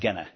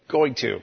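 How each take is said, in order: First: The words are reduced and blended together. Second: Both words are said fully and separately. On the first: The speaker calls it wrong. "catches me saying, gonna" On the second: The speaker calls it right. "So, going to"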